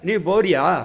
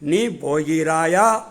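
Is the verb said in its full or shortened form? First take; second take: shortened; full. First: The verb is said in a shortened spoken form. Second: The verb is said in its full formal form. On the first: This is the everyday spoken style. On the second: This is the pure written style.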